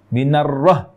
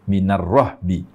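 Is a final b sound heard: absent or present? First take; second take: absent; present. First: The word ends without any b sound. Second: The word ends with an audible b sound. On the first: The speaker calls it wrong. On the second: The speaker calls it right.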